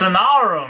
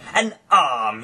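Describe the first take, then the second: First: The word arm is stretched into two syllables. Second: The word arm is said as one syllable.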